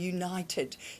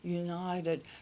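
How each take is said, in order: First: The word is articulated crisply and firmly. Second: The word is articulated loosely and weakly. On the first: "instead of saying" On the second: "his tongue goes loose, so his it hasn't got any strength in it"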